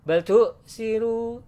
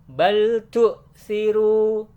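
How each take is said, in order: First: The l runs quickly into the next syllable. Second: The l is held calmly before the next syllable. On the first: The speaker calls it wrong. "bukan dibaca bal tu siru" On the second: The speaker calls it right. "tapi dibaca tenang"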